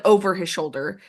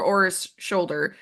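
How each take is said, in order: First: Said in the usual way. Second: "o'er" said as one syllable, no v; dialect o'er. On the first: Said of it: "So instead of". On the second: Shown as a demonstration. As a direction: say "o'er" like "ore". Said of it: "it's O apostrophe E R".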